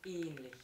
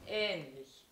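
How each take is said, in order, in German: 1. Der erste Vokal klingt wie ein geschlossenes e. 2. Der erste Vokal klingt wie ein offenes ä. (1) "und nicht ähnlich" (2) "das heißt ja ähnlich"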